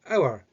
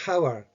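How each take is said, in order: First: The word begins with a vowel, no H sound. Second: The word begins with a pronounced H sound. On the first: The speaker calls it right. "You're saying it hour" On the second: The speaker calls it wrong. "You're not saying hour"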